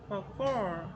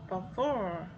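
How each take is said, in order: The two takes are said the same way.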